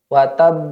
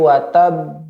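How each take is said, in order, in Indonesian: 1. Huruf b terakhir hanya ditahan sebentar. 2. Huruf b terakhir ditahan dengan jeda panjang. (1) "tapi watab watab hanya sebentar saja" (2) "bukan watab"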